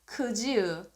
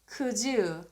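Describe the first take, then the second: No difference in how they are said.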